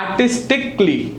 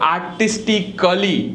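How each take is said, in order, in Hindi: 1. अंतिम -ly से पहले कोई स्वर सुनाई नहीं देता। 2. अंतिम -ly से पहले एक स्वर उच्चारित होता है। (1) "it's just" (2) "you don't have to say"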